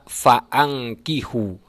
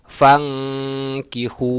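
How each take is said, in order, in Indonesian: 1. Hamzah dibaca dengan harakatnya sendiri. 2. Hamzah dibuang dan bunyinya tersambung. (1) "Tak boleh dibaca faangkihu" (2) "akan tetapi dibaca fangkihu"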